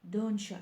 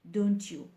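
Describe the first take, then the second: First: The two words are run together and reduced. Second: Both words are pronounced fully and separately. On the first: The speaker calls it right. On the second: The speaker calls it wrong.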